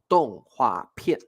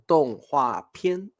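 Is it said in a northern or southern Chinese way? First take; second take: southern; northern. First: It is said the southern Chinese way. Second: It is said the northern Chinese way.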